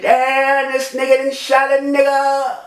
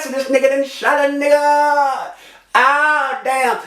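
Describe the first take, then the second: First: High, held wail of disbelief; shocked cry. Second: High, long-held wail on one note; shocked cry. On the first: Man realises he has just been shot, shocked cry. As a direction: cry it out high, stretching the end. Reenacts crying out when shot. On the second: Shot man shows just how he cried out, shocked cry. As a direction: wail it in disbelief, drawing it out. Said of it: "just like that". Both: Retold or imitated.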